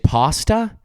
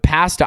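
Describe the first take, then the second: First: Pasta is said in the American way. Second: Pasta is said in the Canadian way. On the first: "you guys say pasta" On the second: "but pasta"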